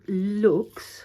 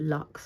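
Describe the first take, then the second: First: The vowel is long, like 'looks'. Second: The vowel is short, like 'lucks'. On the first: It is read the way Latin would read it. "It's me and my Latin background" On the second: It is read the usual English way. "or lux, I guess?"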